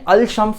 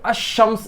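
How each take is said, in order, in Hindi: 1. shams से पहले l की आवाज़ साफ़ सुनाई देती है। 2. l की आवाज़ चुप रहती है, वह sh में जुड़ जाती है। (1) "इसको ऐसे नहीं पढ़ेंगे" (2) "अशम्स इस तरह से इसको पढ़ेंगे"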